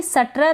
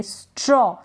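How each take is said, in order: First: सट्र with a full "sa" before tra; full vowel after S. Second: स्ट्रॉ with S run straight into "traw"; half S blend. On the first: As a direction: say सट्र as sa-tra, S not blended. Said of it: "इसको भी सट्र तो नहीं पढ़ सकते". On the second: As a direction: blend स्ट्रॉ as "straw", no vowel after S. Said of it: "आधा स pronounce करेंगे". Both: Shown as a demonstration.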